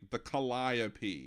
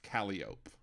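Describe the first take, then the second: First: It is pronounced the usual everyday way. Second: It is pronounced the local street-name way. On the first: "the musical instrument that's the calliope" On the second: "but in New Orleans it's it's pronounced Calliope"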